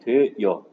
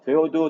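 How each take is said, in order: First: The last vowel has a y glide, yeo. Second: The last vowel is a plain eo, no glide.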